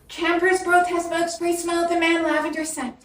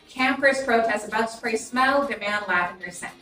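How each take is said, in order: First: The voice sounds weak and lacks punch. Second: The voice sounds strong with more punch. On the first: The speaker calls it wrong. "That's not going to sound too great" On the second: The speaker calls it right. "Your voice is going to have more of a kick to it"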